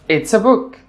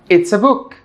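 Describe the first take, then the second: No difference in how they are said.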